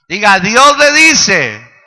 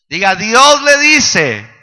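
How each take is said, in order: The two takes are said the same way.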